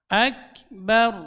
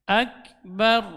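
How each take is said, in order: No difference in how they are said.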